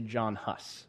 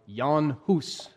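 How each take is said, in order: First: The name is said with an English pronunciation. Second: The name is said with a Czech pronunciation. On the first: This is the anglicized form of the name. "I'm just going to say John Huss" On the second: This is the original form of the name. "Technically, it should be pronounced more like Jan Hus"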